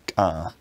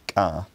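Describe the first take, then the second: The two takes are said the same way.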